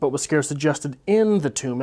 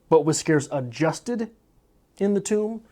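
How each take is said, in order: First: The stress is on the word in. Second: The stress is on the word adjusted.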